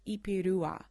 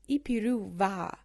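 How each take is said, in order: First: No v sound; the word ends in a plain a. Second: A clear v sound comes before the final a. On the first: The speaker calls it right. "almost like just a, just an A on the end" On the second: The speaker calls it wrong. "I was walking around for a long time saying va"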